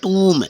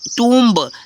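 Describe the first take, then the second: First: The word ends on m with no b. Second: A b sound is heard at the end. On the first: The speaker calls it right. "बी silent हो रहा है" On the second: The speaker calls it wrong. "ऐसा नहीं friends"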